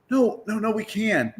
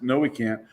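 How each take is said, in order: First: Much higher, pleading comeback; retold eager contradiction in raised pitch; high-pitched insistence. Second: Said in the usual way. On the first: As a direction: insist it can be done, voice jumping up. Retold insisting against the refusal.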